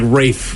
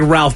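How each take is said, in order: First: The name is said with a long A. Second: The name is said with an L sound. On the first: This is how the name is actually said. The speaker calls it right. "it's like Rafe is how you say his name" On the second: This is how the spelling looks. The speaker calls it wrong. "It looks like Ralph"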